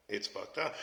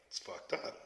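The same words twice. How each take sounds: First: Said in the usual way. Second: Breathy whispered aside; whispered, then said aloud. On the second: Real, not acted. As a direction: drop to a whisper on the first take. Repeated remark, first whispered.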